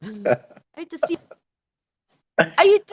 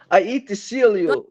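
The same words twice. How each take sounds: First: Count Dracula. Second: Put-on higher, theatrical vampire accent; hammed-up Transylvanian accent; Count Dracula. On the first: Pretend. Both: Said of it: "has to talk like this".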